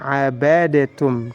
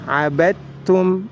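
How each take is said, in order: First: The d bounces with a vowel before t. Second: The d merges straight into the t. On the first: The speaker calls it wrong. "tidak boleh dibaca" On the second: The speaker calls it right. "dihilangkan sifat qalqalahnya"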